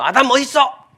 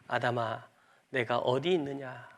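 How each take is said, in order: First: It is said in an angry voice. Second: It is said in a loving voice.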